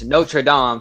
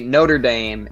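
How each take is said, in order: First: It is said with a non-American pronunciation. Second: It is said with an American pronunciation. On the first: It refers to the cathedral. "it's Notre Dame to refer to the cathedral" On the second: It refers to the sports team. "Americans say Notre Dame in reference to the sports team"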